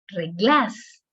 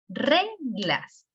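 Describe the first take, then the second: First: The stress is on the second syllable. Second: The stress is on the first syllable. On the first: The speaker calls it wrong. "No puede decir reglas, se escucharía algo raro" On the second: The speaker calls it right. "pero sí reglas... la sílaba tónica es re"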